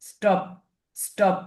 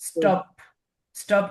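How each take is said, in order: No difference in how they are said.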